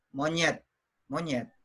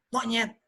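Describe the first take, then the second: First: Said in the usual way. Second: MONYET pitched up, thrown at someone as an insult; higher, pointed mock insult; insult given life. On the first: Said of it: "waktu saya bilang monyet, dia biasa-biasa saja". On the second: Shown as a demonstration. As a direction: demonstrate calling someone monyet to provoke. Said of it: "begitu kita kasih nyawa".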